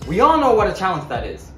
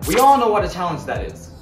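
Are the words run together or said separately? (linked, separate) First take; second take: linked; linked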